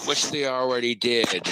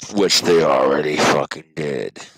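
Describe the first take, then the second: First: Said in the usual way. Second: "Which they already fucking did" much lower and louder, fucking hit hard; stress on fucking. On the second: Shown as a demonstration. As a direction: growl "fucking" low and loud.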